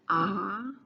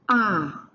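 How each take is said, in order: First: It is said with the second tone. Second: It is said with the fourth tone.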